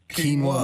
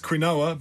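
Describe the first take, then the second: First: The O is said like a W sound. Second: The O is said as a full vowel. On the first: "but it's pronounced quinoa" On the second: "It's spelled Q-U-I-N-O-A. Hence quinoa"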